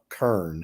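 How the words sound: It is said the Memphis way, like 'kern'.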